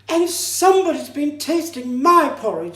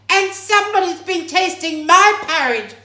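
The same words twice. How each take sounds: First: It is said in a medium-sized voice. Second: It is said in a high squeal.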